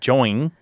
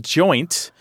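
First: The word ends without a T sound. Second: The word ends with a clear T sound.

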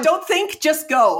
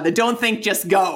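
First: It is said with much more vigor. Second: It is said with little energy.

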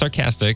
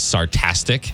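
First: The middle syllable starts with a k sound. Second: The middle syllable starts with a t sound. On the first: The speaker calls it right. "well, it's sarcastic" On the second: The speaker calls it wrong. "She says sartastic"

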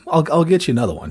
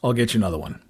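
First: It is said warmly, with an apologetic feeling. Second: It is said flatly, with no apologetic feeling. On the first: The speaker feels sorry about the listener's loss. The speaker calls it right. "some sort of empathy" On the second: The speaker does not care about the listener's loss. The speaker calls it wrong. "just completely matter of fact"

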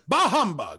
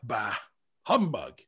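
First: Bah is a full, deliberate exclamation. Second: Bah is a casual, dismissive grunt.

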